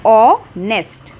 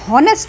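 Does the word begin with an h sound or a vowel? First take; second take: vowel; h sound. First: The word begins with a vowel, no h. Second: The word begins with an h sound. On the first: The speaker calls it right. "हम बोल रहे हैं ऑनेस्ट" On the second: The speaker calls it wrong. "यहाँ पे हम हॉनेस्ट नहीं बोल रहे हैं"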